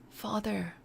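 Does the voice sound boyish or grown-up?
boyish. It is said in a little boy's voice.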